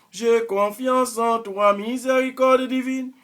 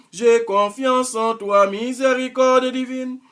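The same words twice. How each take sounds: Both takes have the same delivery.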